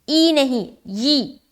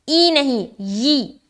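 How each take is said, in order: Both takes have the same delivery.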